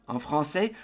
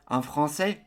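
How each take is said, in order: No difference in how they are said.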